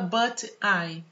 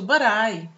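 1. As duas palavras são ditas separadamente. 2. As duas palavras são ditas juntas. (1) "A gente não fala but I" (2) "É tudo junto"

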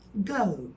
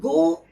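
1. Ünlü sonda kayarak biter. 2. Ünlü sabit kalır, kayma olmaz. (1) "Sanki sonunda yumuşak G varmış gibi" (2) "go değil"

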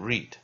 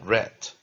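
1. 这个元音是长的，听起来像 reed。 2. 这个元音是短的，听起来像 red。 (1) "现在是念read" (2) "过去是念rat"

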